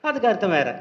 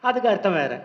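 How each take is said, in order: No difference in how they are said.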